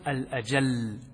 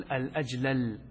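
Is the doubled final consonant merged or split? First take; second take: merged; split. First: The final consonants are merged into one doubled sound. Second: The final consonants are pronounced separately, not merged. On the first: "فالإدغام أن تقول" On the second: "والفك أن تقول"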